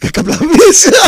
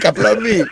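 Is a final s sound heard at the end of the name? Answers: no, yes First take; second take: yes; no. First: The name ends with an audible s sound. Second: The name ends on a vowel with no s. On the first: The speaker calls it wrong. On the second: The speaker calls it right.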